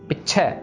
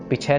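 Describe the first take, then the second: First: The first vowel is short with a held consonant. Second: The first vowel is long with no held consonant. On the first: The speaker calls it right. "पिछे के ऊपर pressure देना हमने" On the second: The speaker calls it wrong. "इसको पीछे नहीं पढ़ना"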